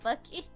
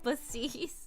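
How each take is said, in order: First: The middle consonant is a k sound. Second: The middle consonant is an s sound. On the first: "pronouncing the the C as like k" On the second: "they pronounce it with the s"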